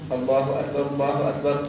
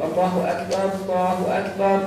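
First: It is said quickly, run together. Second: It is said slowly and drawn out.

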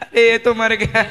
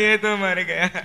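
First: It is said with laughter. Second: It is said in a very sad way.

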